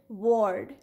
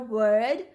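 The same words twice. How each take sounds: First: The vowel sounds like 'or'. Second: The vowel sounds like 'er'. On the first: The speaker calls it wrong. "If we pronounce it according to its sounds, so it will be W-ord" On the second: The speaker calls it right. "But we say it either word with ER"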